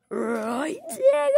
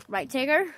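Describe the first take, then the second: First: Drawn-out "Right", then "Tigger" leaping high and loud; silly exaggerated question. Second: Said in the usual way. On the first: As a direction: swoop way up on "Tigger".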